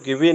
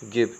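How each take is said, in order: First: The word ends with an extra vowel sound. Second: The word ends without an extra vowel sound. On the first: The speaker calls it wrong. "गिवे नहीं पढ़ेंगे" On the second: The speaker calls it right. "सही उच्चारण होगा तो ये होगा गिव"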